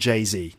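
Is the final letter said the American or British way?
American. The final letter is said the American way. The speaker calls it right. "we still call him [name]"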